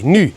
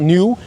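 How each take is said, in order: First: The word is said with a Dutch vowel. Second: The word is said with an English vowel. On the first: The speaker calls it right. "like the Dutch say" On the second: The speaker calls it wrong. "Not new"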